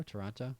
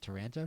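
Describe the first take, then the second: First: Toronto with an open "ah" in the middle; alternative pronunciation. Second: Taranto with a flat "an" as in "ant"; alternative pronunciation. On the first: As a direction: say Toronto as tuh-RAHN-toe. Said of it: "pronounce that Toronto when I saw it". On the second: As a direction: say Taranto as tuh-RAN-toe. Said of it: "I would probably pronounce that". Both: Shown as a demonstration.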